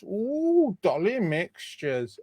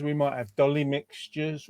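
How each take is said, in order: First: A high swooping ooh, then a slow, lightly put-on drawl; silly put-on voice. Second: Said in the usual way. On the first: Host showing off sweets on a live raffle, lightly put-on silly voice. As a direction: play up the treat like a giddy sweet-shop fan. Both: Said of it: "Don't know why I'm doing that voice".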